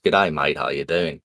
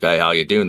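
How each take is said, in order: First: Australian accent. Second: Said in the usual way. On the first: Shown as a demonstration. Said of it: "English and Australian are very similar". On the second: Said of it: "but instead of being like".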